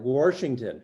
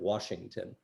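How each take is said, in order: First: An R sound is added in the word. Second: No R sound is added in the word. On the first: "they put an R in there where there isn't one" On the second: "Instead of Washington"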